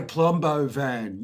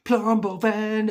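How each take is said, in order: First: Said in the usual way. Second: Slow, high, loud drawn-out call; excited call. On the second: Retold or imitated. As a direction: stretch out PLUMBO VAN as an excited cry. Kids hail the van.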